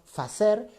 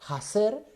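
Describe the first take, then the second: First: The word begins with an f sound. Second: The word begins with an audible breathy h. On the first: This is the older Latin-based form. "Palabras que en latín se decían con F" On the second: This is the intermediate stage of the change. "primero pasa por un- una especie de H sonora"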